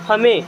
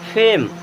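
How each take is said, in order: First: Short a vowel and the final e is sounded. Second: Long ay vowel and the final e is silent. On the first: The speaker calls it wrong. "बारह खड़ी में क्या पढ़ेंगे?" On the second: The speaker calls it right. "English का सही तरीका क्या है?"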